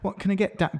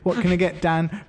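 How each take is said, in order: First: It is said in the speaker's ordinary accent. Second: It is said in a Birmingham accent.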